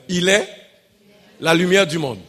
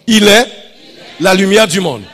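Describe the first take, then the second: First: It is said at normal volume. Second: It is said louder.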